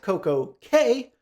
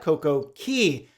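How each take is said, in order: First: The last word rhymes with 'day'. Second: The last word rhymes with 'see'. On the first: "do you pronounce it perfect day at Coco K" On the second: "or perfect day at Coco Key?"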